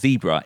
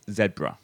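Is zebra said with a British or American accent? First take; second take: American; British. First: It is said with an American accent. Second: It is said with a British accent.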